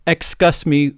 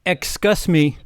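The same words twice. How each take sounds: First: Louder repeat of excuse me; yelled. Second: Yelled. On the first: Janitor calls out into the dark corridor, louder. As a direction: call it out sharply. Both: Acted. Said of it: "Yelled Mister Norris".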